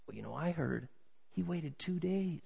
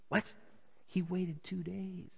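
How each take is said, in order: First: Soft, confiding gossip; hushed rumor. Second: Soft, slow, shocked question; hushed disbelief. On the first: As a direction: pass it on like a secret. Acts out onlooker passing on rumor. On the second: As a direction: echo the rumor in disbelief. Second onlooker reacts to the rumor. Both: Acted.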